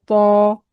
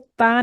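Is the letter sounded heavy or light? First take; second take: heavy; light. First: The letter is sounded thick and heavy. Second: The letter is sounded thin and light. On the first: The speaker calls it right. "तो को मोटा पढ़ेंगे" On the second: The speaker calls it wrong. "ता नहीं पढ़ेंगे"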